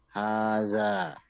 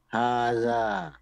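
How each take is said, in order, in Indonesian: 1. Vokal pertama panjang. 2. Vokal pertama panjang.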